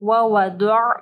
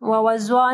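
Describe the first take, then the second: First: The middle consonant is a heavy emphatic D. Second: The middle consonant is a light Z sound. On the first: The speaker calls it right. "ज़ाद को हैवी पढ़ना है" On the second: The speaker calls it wrong. "ववज़अ नहीं पढ़ना"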